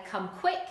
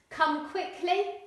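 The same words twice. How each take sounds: First: "Come quick" said casually; casual dialect for "Come quick"; non-standard English. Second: Said in the usual way. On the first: Shown as a demonstration. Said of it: "you might hear someone say". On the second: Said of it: "Standard English".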